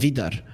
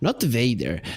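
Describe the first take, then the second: First: The name is said as Vidar. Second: The name is said as Vader. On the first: The speaker calls it right. "it's Vidar" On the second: The speaker calls it wrong.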